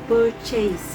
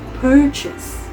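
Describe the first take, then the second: First: The final sound is stretched into an extra vowel. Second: The final sound is soft and clipped short. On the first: The speaker calls it wrong. "commonly mispronounced as purchase" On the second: The speaker calls it right. "the correct pronunciation is purchase"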